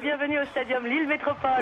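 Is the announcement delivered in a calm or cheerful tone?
cheerful. It is said in a lively, cheerful tone. "un petit peu plus enjoué"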